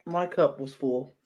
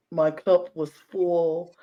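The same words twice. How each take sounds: First: Said in the usual way. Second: "My cup was full" slowed, leaning on "cup"; slow emphasis. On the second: Real, not acted.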